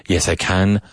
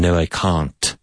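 First: Short flat a in can, Yes, I can; London vowel. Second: Long broad ah in can't, No, I can't; well-spoken Londoner saying can't as cahnt; London vowel. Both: Shown as a demonstration. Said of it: "a difference in the vowel sound".

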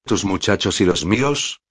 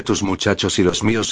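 First: Rising questioning tune on "los míos"; echoed question. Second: Said in the usual way. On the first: A narrator's reading. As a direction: repeat it back as a question, lifting "míos". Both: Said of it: "repitió Kato".

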